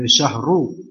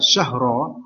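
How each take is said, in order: First: The word ends in a u vowel. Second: The word ends in an a vowel. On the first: The word starts a new nominal sentence. "ra-nya di dhammah" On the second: The word continues the previous phrase as its apposition. "Ada harokat di atas ra fathah"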